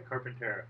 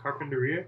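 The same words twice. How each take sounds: First: Carpintera falling softly, TERR stressed; mispronunciation. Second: Said in the usual way. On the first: Shown as a demonstration. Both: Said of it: "Carpintera is the first".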